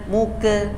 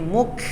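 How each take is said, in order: First: The k is followed by a short e vowel. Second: The k is released with a soft hiss. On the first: The speaker calls it wrong. "bukan muke" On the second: The speaker calls it right. "tapi muk, Yang terdengar itu desisan"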